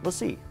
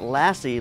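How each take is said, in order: First: It does not sound like the dog's name. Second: It sounds like the dog's name Lassie. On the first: The speaker calls it right. "but it's pronounced Lassie" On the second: The speaker calls it wrong. "It's not Lassie like the dog"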